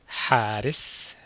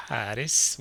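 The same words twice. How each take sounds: First: Slow, loud model pronunciation of حارس; slow model word. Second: Said in the usual way. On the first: Shown as a demonstration. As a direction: say حارس slowly and loudly for learners to copy. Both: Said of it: "What do you think حارس means?".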